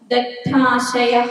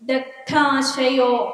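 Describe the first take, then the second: First: The word ends in an 'ah' sound. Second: The word ends in an 'o' sound. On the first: The word stands alone in prose. "ഗദ്യമാക്കിയിട്ട് പറയുമ്പോൾ ദഗ്ധാശയ എന്നാണ് വരിക" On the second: The word is joined to the next word in verse. "ദഗ്ധാശയോ എന്നുള്ളത്"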